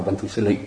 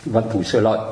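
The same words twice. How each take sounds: First: "Lị" with a plain i vowel; correct transliteration. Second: "Lợi" with the ơi vowel glide; customary reading. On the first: Teacher showing the more faithful transliteration, correct pronunciation. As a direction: end the name on "Lị", no ơi glide. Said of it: "phiên âm cho đúng thì phải". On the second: Teacher showing the familiar reading of the name, customary pronunciation. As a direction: end the name on "Lợi", rhyming with ơi. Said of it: "chứ người ta không đọc là". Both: Shown as a demonstration.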